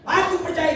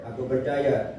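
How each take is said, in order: First: High-pitched cry of belief; acted cry. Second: Said in the usual way. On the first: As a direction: cry it out like the desperate father. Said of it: "Karena dia teriak". (berseru dengan nada tinggi) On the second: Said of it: "Kalau dia teriak".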